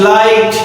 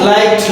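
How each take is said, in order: Both takes have the same delivery.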